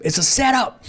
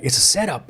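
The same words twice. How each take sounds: First: Second time it hits him, higher and urgent; alarmed realization. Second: Said in the usual way. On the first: Retold or imitated. To the homeboys as the trap dawns, rising alarm. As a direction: pitch jumps much higher on the repeat. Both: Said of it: "And I'm like".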